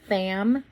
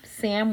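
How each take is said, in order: First: It begins with a lisped th sound. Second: It begins with a clear s sound.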